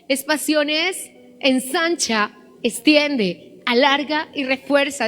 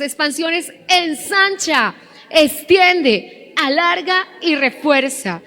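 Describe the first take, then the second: First: It is said at a normal volume. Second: It is said with full force, loudest.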